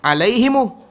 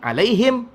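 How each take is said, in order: First: The word ends open, with an extra 'u' vowel. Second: The word ends in a closed 'him' sound. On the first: A group that finds closing the mouth hard reads it this way. "Satu orang baca lagi alaihimu" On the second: Another group of Arabs reads it this way. "Satu orang baca lagi alaihim"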